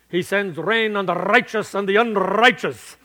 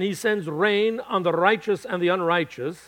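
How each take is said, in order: First: It is said in a put-on Irish accent. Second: It is said in the speaker's normal accent.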